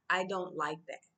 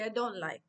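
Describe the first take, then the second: First: Said in the usual way. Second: "I don't like" said higher with a local lilt; English bent to a Tanzanian accent. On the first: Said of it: "I won't say". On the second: Shown as a demonstration. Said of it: "I'll say".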